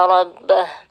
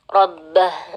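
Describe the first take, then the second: No difference in how they are said.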